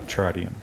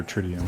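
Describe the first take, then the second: First: "tritium" with first syllable like "try"; long-i pronunciation. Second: "tritium" with first syllable like "trip"; short-i pronunciation. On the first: Unsure gamer naming glow sight material, "tritium" said TRY-dee-um. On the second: Unsure gamer offering another pronunciation, "tritium" said TRID-ee-um. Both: Shown as a demonstration. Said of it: "or however you pronounce that".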